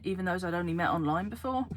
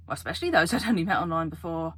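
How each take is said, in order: First: Said in the usual way. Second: "especially those" hit harder and louder; emphatic self-correction. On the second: Real, not acted. Vlogger corrects herself about online friends, stressing "especially those".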